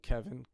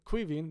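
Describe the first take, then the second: First: The name begins with a plain K sound. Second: The name begins with a KW sound.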